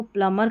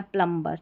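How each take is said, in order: First: प्लमर in English reading, no B; silent B. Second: प्लम्बर as written in Hindi, with B; B sounded. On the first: Teacher giving the English reading, प्लमर with silent B. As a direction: go from M straight to "ar" in प्लमर. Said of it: "प्लम्बर करके ही पढ़ना है English में". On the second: Teacher reading out the Hindi spelling, प्लम्बर with B sounded. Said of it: "ये हिंदी में लिखा गया है प्लम्बर". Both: Shown as a demonstration.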